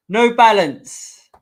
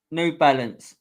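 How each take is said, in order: First: Slow, higher and louder, like an announcer; drawn-out announcement. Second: Said in the usual way. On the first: Pretend. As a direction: stretch the brand name out big and loud. Drawn out sponsor name.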